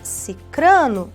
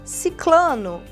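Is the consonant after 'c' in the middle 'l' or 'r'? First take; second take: r; l. First: The middle cluster is pronounced with 'r'. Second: The middle cluster is pronounced with 'l'. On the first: The speaker calls it right. "nós temos cicrano na língua portuguesa" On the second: The speaker calls it wrong. "tá errado"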